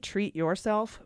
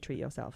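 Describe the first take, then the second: First: The word yourself is said in full. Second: The word yourself is reduced to yo self.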